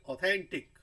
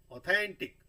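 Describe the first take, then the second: First: authentic with thain stressed; second syllable stressed; stress demo. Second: authentic louder with थैन punched and falling; teacher repeats the word; stress demo. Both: Shown as a demonstration. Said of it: "थैन पे आ रहा है".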